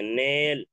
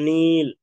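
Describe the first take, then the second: First: The vowel is a mid 'e' sound, like 'nail'. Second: The vowel is a high 'ee' sound, like 'need'. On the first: The speaker calls it wrong. "नील के बजाय नेल पढ़ देंगे ... तो ये मजहूल हो जाएगा" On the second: The speaker calls it right. "लेकिन अगर हम नील ... ऐसा करते हैं, तो ये मजहूल नहीं, मारूफ होगा"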